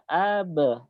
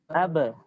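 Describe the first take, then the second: First: The vowel is drawn out long. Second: The vowel is short and quick. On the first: The speaker calls it wrong. "jangan sampai dibaca ab, itu a-nya dipanjangkan" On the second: The speaker calls it right.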